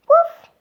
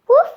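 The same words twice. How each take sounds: First: High, loud puppy woof; puppy bark. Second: Said in the usual way. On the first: Acted. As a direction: yip it out like a happy puppy. Dog barks in story.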